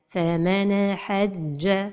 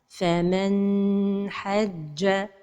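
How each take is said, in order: First: The n sound ends with a bouncing echo. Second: The n sound is held for a long time. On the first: "La première erreur, c'est al-qalqala de an-noun as-sakina" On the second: "La deuxième erreur, c'est de prolonger son temps"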